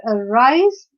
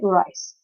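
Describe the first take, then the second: First: "arise" with weak A and stressed RISE; slow "arise", weight on the second syllable; stress on root. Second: "arise" broken in two, A, then RISE; split into syllables. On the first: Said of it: "R requires more stress because arise". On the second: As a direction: pause between the syllables of "arise". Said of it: "this is a two syllable word". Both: Shown as a demonstration.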